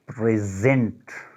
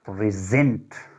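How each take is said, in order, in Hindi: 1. Stress दूसरे अक्षर पर है। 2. स्ट्रेस दूसरे अक्षर पर है।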